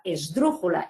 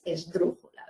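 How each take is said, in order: First: Said in the usual way. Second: "esdrújula" broken after a stressed DRÚ; stress on antepenult. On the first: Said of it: "incluso la misma palabra esdrújula". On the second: Shown as a demonstration. Teacher proving the rule, "esdrújula" with stress held on DRÚ. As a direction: lean on DRÚ in "esdrújula", letting the ending drop. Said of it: "incluso la misma palabra esdrújula es".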